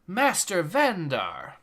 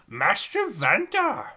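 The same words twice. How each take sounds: First: It is said in his normal voice. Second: It is said in a Yoda-like character voice.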